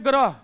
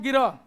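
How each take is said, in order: First: The word starts with a gra cluster. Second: The word starts with gi, an inserted i vowel. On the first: This is how speakers from Uttar Pradesh say it. "उत्तर प्रदेशी कहेंगे" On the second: This is how speakers from Bihar say it. "Bihari कहेंगे इसको"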